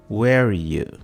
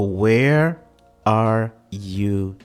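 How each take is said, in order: First: The words blend together like a single word. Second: Each word is pronounced clearly and separately. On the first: The speaker calls it right. "fica como se fosse uma palavra só" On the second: The speaker calls it wrong. "Só que é claro que ela não pronuncia assim"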